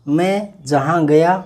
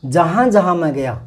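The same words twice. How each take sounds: First: Said in the usual way. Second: First "जहाँ" leaned on, ahead of "मैं"; weight on the opening "जहाँ जहाँ"; stress on जहाँ. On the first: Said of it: "कर्ता पहले आता है". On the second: Shown as a demonstration. Teacher shows stress by moving जहाँ to the front, with weight on it. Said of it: "किसी शब्द पर बलाघात".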